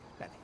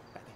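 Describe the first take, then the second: No difference in how they are said.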